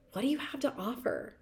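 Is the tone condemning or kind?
kind. The question sounds curious and kind. It is a genuine question about one's strengths. The speaker calls it right. "Same words, same question, different tone"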